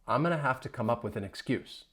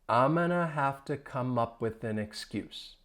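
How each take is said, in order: First: The sentence is spoken quickly. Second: The sentence is spoken slowly. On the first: "Let's speed things up" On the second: "I'll say it again slowly"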